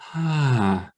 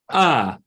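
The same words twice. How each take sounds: First: The vowel starts with an audible breath. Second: The vowel starts with an abrupt click.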